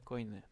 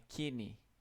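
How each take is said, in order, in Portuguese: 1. A primeira sílaba soa como 'koy'. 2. A primeira sílaba soa como 'kee'. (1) "Eu achava que era" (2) "a pronúncia correta disso aqui"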